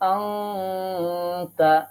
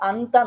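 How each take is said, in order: First: The n becomes a held nasal sound. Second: The n is pronounced as a clear consonant. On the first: The speaker calls it right. "এরকম ভাবে নাকের মধ্যে নিয়ে একটু দম ধরে গুন্না করে পড়তে হবে" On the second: The speaker calls it wrong. "আন্তা না পড়ে"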